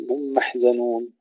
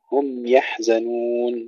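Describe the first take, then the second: First: هم محزنون, meem merged over the ya; swallowed ya. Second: Slow هم يحزنون, distinct m then y; clear meem. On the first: Teacher shows the error, merged هم محزنون. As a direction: run هم into the next word, losing y. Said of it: "ولا نقول". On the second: Teacher corrects it, clear meem in هم يحزنون. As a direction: give the meem of هم its measured length. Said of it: "نعطي الميم حقها من التوسط". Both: Shown as a demonstration.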